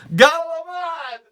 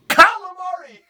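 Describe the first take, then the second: First: It starts with a G and drops the ending. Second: It starts with a K and keeps the ending. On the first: The speaker calls it wrong. "Calamari turns into galamad" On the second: The speaker calls it right. "Just start it"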